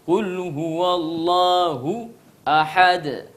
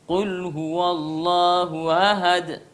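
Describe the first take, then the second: First: The word ahad starts with a glottal stop. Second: The word ahad starts with an h sound. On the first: The speaker calls it right. "a dibuka" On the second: The speaker calls it wrong. "Harusnya a dia baca ha"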